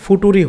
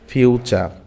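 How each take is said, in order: First: It is said as 'foo-too-ree'. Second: It is said as 'fyoo-cher'. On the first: The speaker calls it wrong. "বানান আমরা দেখেছি F U T U আর ই অর্থাৎ ফুটুরি হয়" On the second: The speaker calls it right. "কিন্তু আসলে এটা উচ্চারণ কি হচ্ছে ফিউচার"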